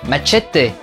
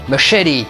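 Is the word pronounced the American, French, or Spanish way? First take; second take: Spanish; American. First: The word is said with a Spanish pronunciation. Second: The word is said with an American pronunciation. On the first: "en espagnol" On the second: "quand on le prononce à l'américaine"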